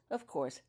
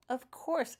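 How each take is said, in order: First: Said in the usual way. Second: Raised, agreeable of course; sympathetic. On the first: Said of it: "Of course, Daniel would have". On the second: A narrator's reading. Daniel agreeing with the wizard, sympathetic. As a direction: agree kindly, on his side. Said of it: "agreed Daniel sympathetically".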